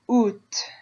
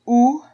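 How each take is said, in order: First: The word ends with an audible T sound. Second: The word ends without a T sound. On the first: "where you hear the T" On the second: "So you're just ignoring the A and the T"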